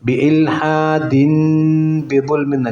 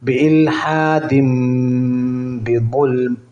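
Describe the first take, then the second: First: The nasal before 'bi' is a clear n sound. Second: The nasal before 'bi' becomes an m sound. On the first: The speaker calls it wrong. "അല്ല അങ്ങനെ ഓതാൻ പാടില്ല" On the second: The speaker calls it right. "അവിടെ മീമാണ് നൂനല്ല"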